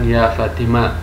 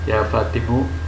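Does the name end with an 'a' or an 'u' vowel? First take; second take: a; u. First: The shortened name ends with an 'a' vowel. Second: The shortened name ends with an 'u' vowel. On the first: The cut name keeps its original final vowel. "Membiarkan isim yang telah dihapus bagaimana sebelum dihapus" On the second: The cut name is treated as ending at that letter. "sebagaimana ya adalah huruf yang terakhir mabni atas dhammah"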